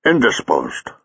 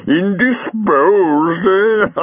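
First: Said in the usual way. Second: High, drawn-out laughing echo; amused, voice way up high; chuckling. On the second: Acted. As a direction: repeat it slowly, squeaking with mirth. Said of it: "Jago chuckled".

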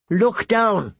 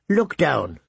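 First: Higher, firmer repeat of "Look down."; "Look down." said higher and more pressing, like a bird insisting; insistent crow. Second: Said in the usual way. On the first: A narrator's reading. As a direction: crow repeating its order to the frightened boy, higher.

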